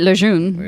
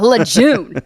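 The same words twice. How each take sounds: First: The name is said with French pronunciation. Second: The name is said with American pronunciation. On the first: "French, right?"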